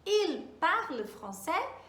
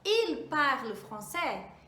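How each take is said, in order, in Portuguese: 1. A voz sobe no final, como numa pergunta. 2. A voz sobe no final, como numa pergunta.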